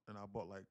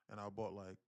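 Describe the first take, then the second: No difference in how they are said.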